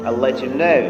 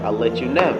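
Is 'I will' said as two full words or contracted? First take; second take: contracted; contracted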